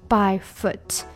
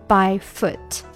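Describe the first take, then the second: Both takes have the same delivery.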